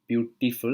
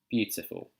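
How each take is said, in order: First: It is said with an Indian accent. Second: It is said with a British RP accent. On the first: "that's in the Indian accent" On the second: "In the British R P accent, in received pronunciation, it will be beautiful"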